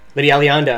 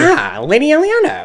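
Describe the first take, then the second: First: It is said in a normal voice. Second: It is said in a put-on Redditor voice.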